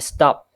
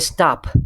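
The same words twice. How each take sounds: First: The p is said without a puff of air. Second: The p is said with a puff of air. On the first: "The per sound can be unaspirated" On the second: "with an aspiration at the end of the per sound"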